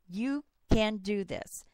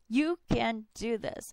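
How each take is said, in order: First: It is said slowly and calmly. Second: It is said with rising enthusiasm. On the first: "I say very slowly" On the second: "I get more enthusiastic as I say it again and again"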